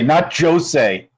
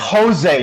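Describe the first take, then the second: First: The name begins with a J sound. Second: The name begins with an H sound. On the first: The speaker calls it wrong. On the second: The speaker calls it right. "the J is an H sound"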